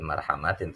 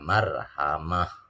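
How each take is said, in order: First: The word ends with a full -tin syllable. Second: The word ends softly with an h sound. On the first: The reader joins it to the next verse. The speaker calls it wrong. "kalau dibaca wasal" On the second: The reader stops at the end of the verse. The speaker calls it right. "ini harusnya marhamah"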